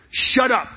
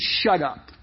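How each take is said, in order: First: Exclaimed. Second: Said in the usual way. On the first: Shown as a demonstration. Giving hush in modern lingo, sharply exclaimed. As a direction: punch it with an exclamation point. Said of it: "Exclamation point".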